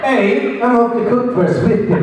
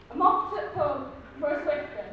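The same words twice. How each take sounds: First: Lightly put-on Scottish accent; a hint of Scottish accent; mock Scottish accent. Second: English accent demo. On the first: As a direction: try a Scottish lilt on the phrase. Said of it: "That was a Scottish accent with your". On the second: Shown as a demonstration. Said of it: "thick English accent".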